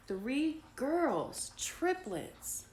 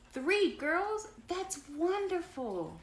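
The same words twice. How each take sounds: First: Put-on "three girls, triplets" pitched high for emphasis; emphatic reveal. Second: High, loud storybook excitement; delighted amazement. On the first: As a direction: announce "three girls, triplets" as big news. Jack reveals the triplets, read aloud. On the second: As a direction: gush over wonderful news, slowing at the end. Grace delighted at news, read aloud. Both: A narrator's reading.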